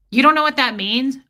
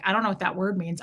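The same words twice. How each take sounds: First: Loud, mocking ex-husband quote; condescending mockery. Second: Said in the usual way. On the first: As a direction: sneer it like a smug husband. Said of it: "that passive-aggressive, laugh at you, condescending shit". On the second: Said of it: "I'm not ashamed to say".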